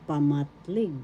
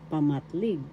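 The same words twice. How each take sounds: The two takes are said the same way.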